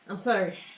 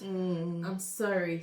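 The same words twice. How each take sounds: First: The apology sounds insincere and dismissive. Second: The apology sounds sincere and genuine. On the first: The speaker does not truly regret it. "But the other one is" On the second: The speaker truly regrets it.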